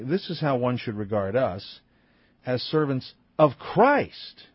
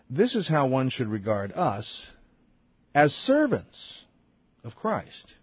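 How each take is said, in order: First: The word Christ carries the main stress. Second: The word servants carries the main stress. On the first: The focus is on whom they serve. "the other emphasis is on Christ" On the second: The focus is on the people who serve. "One emphasis is on servants"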